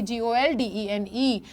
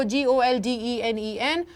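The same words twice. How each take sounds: First: Teacher slowly spells जी ओ एल डी ई एन ई as the wrong version; wrong spelling. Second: Teacher slowly spells जी ओ एल डी ई एन ई एन as the correct version; correct spelling. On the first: Teacher showing students the misprinted spelling, slow and letter by letter. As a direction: spell जी ओ एल डी ई एन ई slowly, stopping short without the last एन. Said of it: "ऐसे नहीं लिखा जाएगा". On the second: Teacher dictating the corrected spelling to students, slow and letter by letter. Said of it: "वो ऐसे लिखा जाएगा". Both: Shown as a demonstration.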